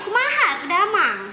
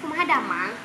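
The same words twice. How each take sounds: First: It is said in a lilting Jampang regional accent. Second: It is said in a plain, soft Sundanese accent. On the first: "kalau kita pergi ke Jampang hari itu, jadi macam nih uh, bunyi dia" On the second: "kalau Arnis cakap bahasa Sunda kan kayak gini... Tuh lembut biasa ya"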